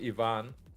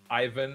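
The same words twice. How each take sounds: First: The name is said with a European-style pronunciation. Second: The name is said with an English-style pronunciation. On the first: This is how the name is said in Europe. The speaker calls it right. "in Europe it would be more like Ivan" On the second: This is not how the name is meant to be said. The speaker calls it wrong. "my name is not Ivan"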